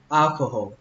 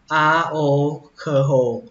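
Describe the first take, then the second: First: The word is said quickly and reduced. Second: The word is said at a normal speed. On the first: "đọc nhanh lại thì nó nghe thế này" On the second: "các bạn đọc là alcohol"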